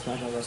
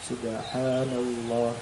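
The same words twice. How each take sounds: First: The phrase is said quickly. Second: The phrase is said slowly. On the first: This is how the speaker's own community says it. "kalau kita subhanallah" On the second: This is how people in Aceh say it. "Mereka enggak"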